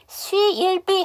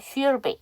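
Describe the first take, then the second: First: 'She'll' is pronounced fully and clearly. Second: 'She'll' is weakened, almost silent. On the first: The speaker calls it wrong. "하시는 것보다" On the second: The speaker calls it right. "이렇게 하시는 게 훨씬 더 편하시죠"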